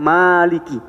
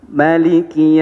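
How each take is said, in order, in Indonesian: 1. Vokal setelah m itu panjang. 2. Vokal setelah m itu pendek. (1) "dipanjangin di situ" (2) "itu dibaca pendek mimnya"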